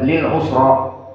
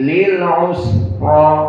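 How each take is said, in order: First: The s sound is cut short and quick. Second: The s sound is held long with hissing. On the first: The speaker calls it wrong. "tidak lil usra" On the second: The speaker calls it right. "dibaca dengan sedikit lambat pada sinnya"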